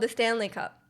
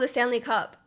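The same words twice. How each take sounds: First: The word Stanley carries the main stress. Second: The word Cup carries the main stress. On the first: It refers to the drinking cup. "they emphasize the Stanley part" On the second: It refers to the hockey trophy. "when you talk about it in hockey"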